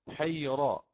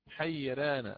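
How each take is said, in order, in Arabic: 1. صوت الراء ثقيل وغليظ. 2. صوت الراء خفيف ورقيق. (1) "هكذا بتفخيمها وليست بترقيقها" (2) "ولنا فيها الوجه الثاني"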